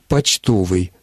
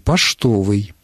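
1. Согласный перед т — звук ч. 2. Согласный перед т — звук ш. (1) "Мы говорим" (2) "В старомосковском варианте русского литературного произношения говорили"

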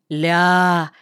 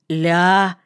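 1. Сказано с восхищённой интонацией. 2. Сказано с удивлённой интонацией. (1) "восхищались «ля», но уже с другим оттенком" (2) "Удивлялись «ля»"

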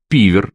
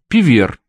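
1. Ударение на первом слоге. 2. Ударение на последнем слоге. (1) "Вы не там ставите ударение" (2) "поскольку фамилия французского происхождения"

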